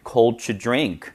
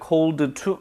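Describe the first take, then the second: First: "cold to" blended as "coltuh", with no d; linked pronunciation. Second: "cold to" with the d sounded out as "col-duh too"; unlinked pronunciation. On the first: Teacher modelling linking for learners, d of "cold" dropped. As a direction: drop the d of "cold" into the t of "to". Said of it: "앞자음인 the는 없습니다". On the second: Teacher demonstrating the mistake to avoid, d of "cold" sounded out. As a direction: release the d of "cold" fully before "to". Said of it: "cold to 아니고요". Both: Shown as a demonstration.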